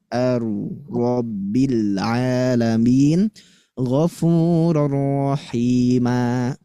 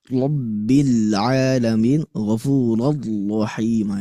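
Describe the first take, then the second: First: "Ar-Rabbil Alamin, Ghafurur Rahima" with a light, forward rolled ro; slow recitation with the ro kept at the front; natural forward ro. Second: "Rabbil Alamin, Ghafurur Rahima" with an exaggerated, forced heavy ro; slow, over-the-top rolled "Ghafurur"; overdone ro. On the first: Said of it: "maka suaranya gimana?". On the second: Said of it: "Itu terlalu berlebihan". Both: Shown as a demonstration.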